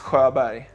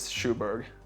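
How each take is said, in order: First: The name is said with native Swedish sounds. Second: The name is said with English sounds, like 'shoe-berg'. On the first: "My Swedish pronunciation is Sjöberg, so that's a bit harder" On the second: "The correct English pronunciation is Schuberg"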